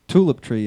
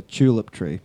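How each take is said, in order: First: Said in the usual way. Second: "tulip" begun with a ch sound, like "chew-lip"; Australian pronunciation. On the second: Shown as a demonstration. Telling the Americans how Australians say "tulip", with a ch at the start. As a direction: say "tulip" as "chulip". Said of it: "We call it a tulip tree".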